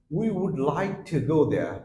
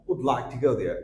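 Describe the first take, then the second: First: Said in the usual way. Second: "Would like to go there" with we'd run into one syllable; contracted form. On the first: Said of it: "আপনি যদি same ভাবে বলেন". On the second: Shown as a demonstration. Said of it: "same ক্ষেত্রে আপনি বলতে পারেন".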